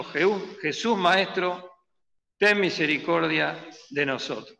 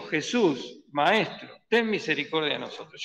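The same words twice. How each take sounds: First: Drawn-out Jesús, Maestro, begging; a slow lifted plea for mercy; slow pleading cry. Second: Said in the usual way. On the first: Retold or imitated. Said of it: "Y alzaron la voz".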